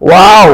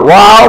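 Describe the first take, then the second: The two takes are said the same way.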